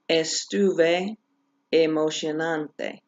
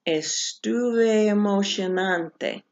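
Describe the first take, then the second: First: The two E vowels are said separately. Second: The two E vowels merge into one longer sound. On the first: The speaker calls it wrong. "Rather than" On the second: The speaker calls it right. "this is when this rule applies"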